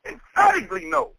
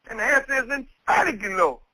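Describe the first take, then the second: First: "Emphatically no" pushed much higher with weight on "Emphatically"; emphatic "Emphatically no". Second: Said in the usual way. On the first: Shown as a demonstration. Preacher to the congregation, "Emphatically no" said with heavy emphasis. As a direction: lean hard on "Emphatically" and land the "no". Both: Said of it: "With emphasis".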